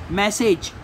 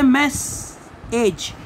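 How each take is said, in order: First: Said in the usual way. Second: "मैसेज" slowly, in two separate halves; split into syllables. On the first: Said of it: "जैसे हम pronounce कर रहे हैं". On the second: Shown as a demonstration. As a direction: clear pause in the middle of "मैसेज". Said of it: "इसको हमें cutting करना है".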